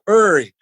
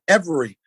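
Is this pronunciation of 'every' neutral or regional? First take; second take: regional; neutral. First: The word is said in a strong regional accent. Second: The word is said in a more neutral accent. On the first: Others did not understand it. "I used to be like, every, and people used to be like, what" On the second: Others can understand it without asking. "I'm like, um, every"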